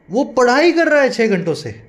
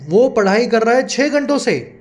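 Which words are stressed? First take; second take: पढ़ाई कर; छः घंटों. First: The stress is on the studying action verb. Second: The stress is on the six-hours duration phrase.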